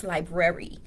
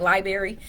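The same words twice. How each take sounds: First: "library" said fully as "lie-brer-ee"; proper pronunciation. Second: "Library" said loosely as "lie-berry"; countrified pronunciation. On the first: Retold or imitated. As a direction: sound both Rs in "library". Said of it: "And they be like". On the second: Shown as a demonstration. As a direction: drop the first R in "Library". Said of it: "That's just how I talk".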